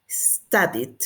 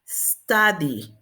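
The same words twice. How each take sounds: First: STUDIED low, "sta-dit"; past -ed ending. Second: STUDY ending on open "ee"; final vowel. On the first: Teacher answering how we say it, past -ed ending. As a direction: close STUDIED on a short stop. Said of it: "¿cómo decimos?". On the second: Teacher showing a vowel ending, final vowel. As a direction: leave STUDY open, no consonant after. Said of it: "va a terminar como en vocal". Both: Shown as a demonstration.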